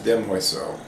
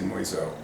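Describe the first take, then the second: First: It has the full standard French form. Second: It has the shortened Cajun French form. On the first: "I think the proper French pronunciation is demoiselle" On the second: "but the Cajuns say moiselle"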